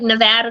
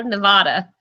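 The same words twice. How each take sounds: First: "Nevada" with a flat a as in cat: ne-VAD-a. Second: "Nevada" with a broad ah: ne-VAH-da. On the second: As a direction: say "Nevada" with an open ah. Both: Shown as a demonstration. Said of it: "People say things different".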